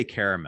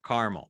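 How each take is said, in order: First: "caramel" with an AIR vowel and a middle uh; three-syllable caramel. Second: "caramel" squeezed to KAR-mul, middle vowel dropped; two-syllable CAR-mel. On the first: Co-host gives their own version, "caramel" as KAIR-uh-mel. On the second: Co-host repeats the presenter's word, "caramel" as two-syllable CAR-mul. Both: Shown as a demonstration. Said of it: "So I say caramel".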